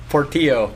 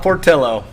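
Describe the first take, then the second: First: "Portillo" said por-TEE-oh, no L sound; "Portillo" Spanish-style, ending "tee-oh"; correct pronunciation. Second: "Portillo" said por-TILL-oh, with an L; "Portillo" the Anglicized way, ending "till-oh"; mispronunciation shown. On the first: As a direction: correct it to "Portillo" with a silent double L. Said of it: "Not Portillo". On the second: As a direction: hit "Portillo" louder, sounding the L as in "pillow". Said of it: "It's not Portillo?". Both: Shown as a demonstration.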